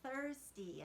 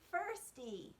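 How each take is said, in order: First: The word begins with a TH sound. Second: The word begins with an F sound. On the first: The speaker calls it right. "her saying thirsty and sticking out her tongue" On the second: The speaker calls it wrong. "she is saying firsty"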